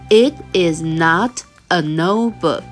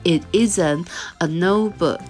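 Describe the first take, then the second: First: The words is and not are said in full. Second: The words is and not are contracted together. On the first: "你也可以说成It is not a notebook" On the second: "在口语上我们会把它缩读"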